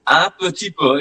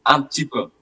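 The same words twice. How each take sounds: First: "Un petit peu" with every syllable of petit sounded; careful full form. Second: "Un petit peu" with petit clipped to "p'ti"; fast colloquial form. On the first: Teacher gives the careful spelled-out form. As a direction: say "petit" fully as two syllables. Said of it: "it's actually un petit peu". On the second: Teacher shows how French speakers say it fast. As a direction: drop the E of "petit" as in quick speech. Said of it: "In fast conversation, they pronounce it as". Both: Shown as a demonstration.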